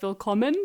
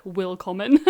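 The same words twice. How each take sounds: First: Said in the usual way. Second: Put-on WILLKOMMEN said with a heavy English accent; badly anglicised German in WILLKOMMEN. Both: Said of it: "in a really bad English accent".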